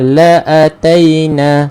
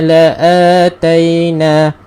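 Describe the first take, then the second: First: The vowel after the hamzah is held short. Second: The vowel after the hamzah is held long. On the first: The speaker calls it wrong. "ada setengah kita baca dengan la'ataina. Sebab apa? Sebab dia ingatkan hamzah ni adalah tanpa mat" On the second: The speaker calls it right. "baca dengan dua harakat"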